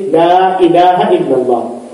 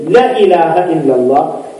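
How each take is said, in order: First: "La" held long, with a drawn-out vowel; "La" as lam and alif, long "aa". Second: "La" cut short before "ilaha"; "La" run straight into "ilaha", vowel not held; short "la" mistake. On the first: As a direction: stretch the vowel of "La" before "ilaha". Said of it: "it is lam and alif". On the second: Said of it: "if we make a little mistake". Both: Shown as a demonstration.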